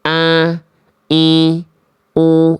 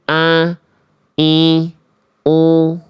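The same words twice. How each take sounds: First: The vowels are nasal and resonate in the nose. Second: The same.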